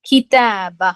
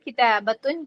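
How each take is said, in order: First: The word ends on a plain 'a' sound. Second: The word ends with an added 'atun' sound. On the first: The word is said at the end, at a stop. "നമ്മൾ ഹ എന്നുള്ള പ്രൊനൗൺസിയേഷനിലാണ് നിർത്തുക" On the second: This is the full form of the word. "ശരിക്കും കിതാബത്തുൻ എന്നാണ്"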